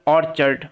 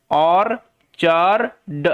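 First: Said in the usual way. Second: অর্চার্ড slowly split as or-char-d; broken into syllables. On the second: Shown as a demonstration. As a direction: sound out অর্চার্ড piece by piece, pausing between parts. (অর্চার্ড ভেঙে ভেঙে ধীরে উচ্চারণ) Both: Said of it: "ভেঙে ভেঙে উচ্চারণ করার চেষ্টা করি".

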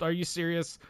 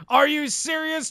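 First: Quiet, stunned disbelief; muttered disbelief. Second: Much higher, louder outraged disbelief; outraged yell. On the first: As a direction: say it under your breath in shock. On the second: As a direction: yell it at the screen in shock. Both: Real, not acted. Swept by Canucks.

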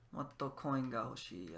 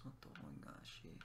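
First: Said in the usual way. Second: Breathy whisper, barely there; hushed repeat of the coin line. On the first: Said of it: "I want more coins". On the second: Shown as a demonstration. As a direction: whisper the wish to yourself.

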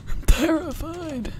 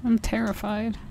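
First: High, slow hammed-up whimper; mock terrified wail. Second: Said in the usual way. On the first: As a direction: drag it out like a scared kid.

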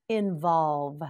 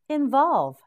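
First: Said in the usual way. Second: Involve said higher and louder, punched with a sharp fall; emphatic model word. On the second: Shown as a demonstration. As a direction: call out Involve high and strong, then drop. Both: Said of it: "Repeat with me".

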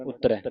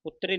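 First: "ਉਤਰੈ" ending in an open "eh" vowel. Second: "ਉਤਰੇ" ending in a close "ay" vowel; mistaken -e ending. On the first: Teacher corrects the students' reading, "ਉਤਰੈ" with open -ai ending. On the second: Teacher shows students the mistake, "ਉਤਰੇ" with close -e ending. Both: Shown as a demonstration. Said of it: "ਉਤਰੇ ਨਹੀਂ ਪੜ੍ਹਨਾ".

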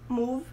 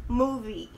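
First: Slow "move", ending on the V; MOVE, one syllable. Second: Slow "movie", MOO-vee; MOVIE, two syllables. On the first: Teacher contrasting two words, "move" in one syllable. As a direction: say "move" with no vowel after V. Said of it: "não move". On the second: Teacher contrasting two words, "movie" with final "ee". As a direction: end "movie" on a full "ee". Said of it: "A pronúncia correta". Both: Shown as a demonstration.

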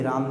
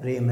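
First: राम with a long "aa"; open-vowel राम; wrong reading "raam". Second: रेम with a front "ae" vowel; English "ram" vowel in रेम; correct reading "ram". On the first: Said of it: "ये राम नहीं है". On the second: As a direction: say रेम to rhyme with "jam". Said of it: "क्या है". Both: Shown as a demonstration.

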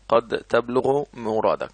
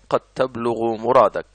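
First: "قد تبلغ مرادك" read slowly, stress on تبلغ; "قد تبلغ مرادك" drawn out word by word; slow dictation read. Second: Said in the usual way. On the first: Shown as a demonstration. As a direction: spell it out slowly for the class. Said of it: "teacher repeats example slowly". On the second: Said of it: "teacher reads example twice".

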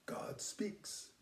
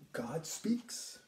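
First: God speaks whispered, much softer; hushed whisper of awe. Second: Said in the usual way. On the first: Shown as a demonstration. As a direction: breathe it like a secret. Repeats phrase, then whispers it.

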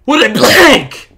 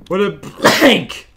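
First: Even higher, louder slow cry; over-the-top excitement. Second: Slow, high and loud cry; hammed-up excitement. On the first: Acted. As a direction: push the thrill further. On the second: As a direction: overplay the thrill. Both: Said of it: "really passionate about wooden planks".

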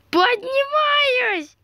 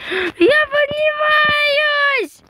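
First: High, slow stretched squeal; high drawn-out cry. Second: Very high, slow squeal; high drawn-out cry. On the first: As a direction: draw the word out high. Repeats flying up cry. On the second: Flying up in game. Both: Pretend.

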